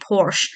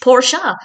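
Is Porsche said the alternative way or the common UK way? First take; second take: UK way; alternative. First: Porsche is said in the common UK way. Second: Porsche is said in the less common alternative way. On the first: The speaker calls it wrong. "Most people in the UK will say Porsche. And I now realise that's incorrect" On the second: The speaker calls it right. "an alternative, or I guess correct, pronunciation of Porsche"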